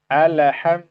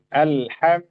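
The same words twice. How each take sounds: First: The L sound is released with a bounce. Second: The L sound flows slightly before stopping. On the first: The speaker calls it wrong. "alham, kita pantulkan" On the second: The speaker calls it right. "sedikit kita alirkan suara"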